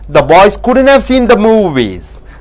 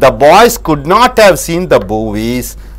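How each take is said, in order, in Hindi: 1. 'Could not' को 'couldn't' कहकर छोटा किया जाता है। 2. 'Could not' दो पूरे शब्दों की तरह बोला जाता है।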